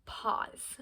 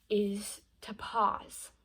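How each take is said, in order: First: "pause" breathed out as a whisper. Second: Slow, drawn-out "is to pause"; a slow, deliberate "pause". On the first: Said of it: "Um, yes". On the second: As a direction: lay it down slowly, letting "pause" land. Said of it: "yes, pause". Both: Shown as a demonstration.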